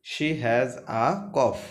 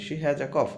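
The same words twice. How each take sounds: First: Each word drawn out slowly; slow model reading of She has a cough. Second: Said in the usual way. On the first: Shown as a demonstration. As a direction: read it very slowly for the class. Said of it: "teacher reads sentence slowly". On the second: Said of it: "quicker repeat after slow take".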